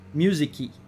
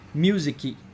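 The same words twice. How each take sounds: The two takes are said the same way.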